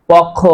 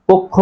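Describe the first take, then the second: First: পক্ষ said as short pɔkh with open অ; পক্ষ with an open pɔ and a single kh; wrong pronunciation. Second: পক্ষ said as pokkho, o sound and doubled kh; পক্ষ with a rounded o and a long held kh; correct pronunciation. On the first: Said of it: "তাহলে উচ্চারণ হবে না". (পক্ষ ভুলভাবে খোলা অ দিয়ে পখ উচ্চারণ) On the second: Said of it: "উচ্চারণ হবে". (পক্ষ সঠিকভাবে ও-কার ও দ্বিত্ব খ দিয়ে পোক্খো) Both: Shown as a demonstration.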